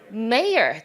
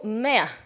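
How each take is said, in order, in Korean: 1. 미국식 발음입니다. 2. 영국식 발음입니다. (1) "Mayor 들리지 않고" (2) "Mayor 정도 하는 영국 발음"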